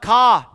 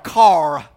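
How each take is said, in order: First: The final R sound is dropped. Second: The final R sound is clearly pronounced. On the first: The speaker calls it wrong. "They talk different" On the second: The speaker calls it right. "Pronounce the R"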